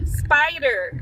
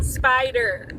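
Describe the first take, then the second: First: Americanised spider, rhotic r; American accent. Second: Spider said Aussie, r dropped; the local Aussie way to say spider; Australian accent. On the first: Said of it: "say spider in an American accent". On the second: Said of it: "Now in English". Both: Shown as a demonstration.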